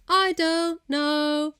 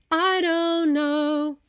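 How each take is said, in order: First: High, slow sung I don't know, broken after DON'T; sung British consonants. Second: High, slow sung I don't know, run together; sung American consonants. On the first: Comparing accents in singing, sung British-style phrase. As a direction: sing DON'T and KNOW as separated notes. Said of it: "if you were singing those words". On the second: Comparing accents in singing, sung American-style phrase. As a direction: sing DON'T KNOW as one continuous sound. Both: Shown as a demonstration.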